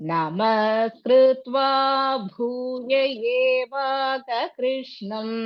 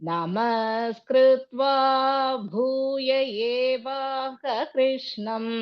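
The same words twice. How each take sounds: The two takes are said the same way.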